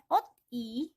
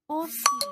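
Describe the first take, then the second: First: A t sound ends, then a separate i. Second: The s links smoothly into the i. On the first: The speaker calls it wrong. "Bukan dibaca ot i, bukan" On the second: The speaker calls it right. "bacanya osi"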